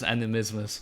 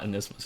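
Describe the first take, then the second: First: The word is said with four syllables. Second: The word is said with three syllables. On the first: The speaker calls it right. "it's animismus" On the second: The speaker calls it wrong. "it's not anismus"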